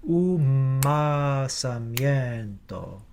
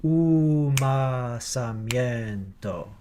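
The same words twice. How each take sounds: First: Umasamiento with the lips closing early onto the m; right way. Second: Umasamiento with the m not closed early; wrong way. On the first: Choir director showing the right Umasamiento. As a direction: Umasamiento with a long held m closure on the offbeat. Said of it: "Here's what I am looking for". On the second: Choir director showing the wrong Umasamiento. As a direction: Umasamiento sung through without the early m closure. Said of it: "Here's what I'm not looking for". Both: Shown as a demonstration.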